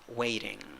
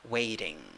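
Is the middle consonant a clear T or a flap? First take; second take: flap; flap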